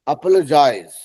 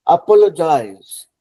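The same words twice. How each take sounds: First: अपोलोजाइज run together quickly as aplojaiz; rushed apologize. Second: अपोलोजाइज said slowly and louder, every syllable a-po-lo-jaiz clear; teacher modelling अपोलोजाइज unhurried for students to copy; slow careful apologize. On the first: Teacher showing how rushing अपोलोजाइज blurs it. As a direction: swallow the middle of अपोलोजाइज in a hurry. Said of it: "जल्दी से बोलेंगे तो". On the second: Teacher modelling अपोलोजाइज slowly, not rushed. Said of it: "तो थोड़ा आराम से देखिए". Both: Shown as a demonstration.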